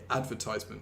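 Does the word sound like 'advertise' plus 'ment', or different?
advertise-ment. It sounds like advertise with ment added. This is the newer, American-influenced form. "you just put "munt" on the end, and it makes more sense to say advertisement"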